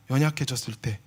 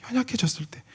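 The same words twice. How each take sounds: First: Said in the usual way. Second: Breathy whisper, no voice at all. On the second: Shown as a demonstration. Preacher whispering the phrase to the congregation. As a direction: hush it like a secret. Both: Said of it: "연약해졌을 때 그것을".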